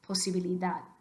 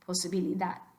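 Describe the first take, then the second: No difference in how they are said.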